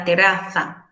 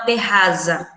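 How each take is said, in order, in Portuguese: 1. O z é um som de th, entre os dentes. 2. O z é um z sonoro, com vibração. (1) "Eles colocam a língua entre os dentes" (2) "o Z não possui o som da abelha nunca em espanhol"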